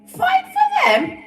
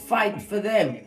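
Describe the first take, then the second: First: It is said in a high falsetto voice. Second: It is said in a normal speaking voice.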